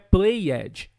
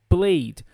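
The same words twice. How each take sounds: First: The ending adds an extra vowel syllable. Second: The ending is only a D sound. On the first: The speaker calls it wrong. "Não é played" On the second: The speaker calls it right. "É como se eu tirasse esse E e só falasse o D"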